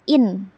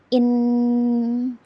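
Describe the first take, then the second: First: The vowel is clipped short. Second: The vowel is drawn out long. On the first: The speaker calls it right. "harus pendek" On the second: The speaker calls it wrong. "tidak boleh in"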